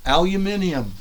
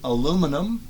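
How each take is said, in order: First: It is said the British and Australian way. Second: It is said the American way.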